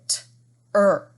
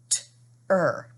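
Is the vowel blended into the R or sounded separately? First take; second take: blended; blended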